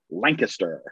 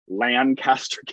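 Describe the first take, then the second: First: It is said the Pennsylvania Dutch way. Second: It is said the way the California town is named. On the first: It refers to the town in Pennsylvania. "if you're Pennsylvania Dutch or whatever the derivation is, it's Lancaster" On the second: It refers to the town in California. "there is a town in California that is pronounced Lancaster"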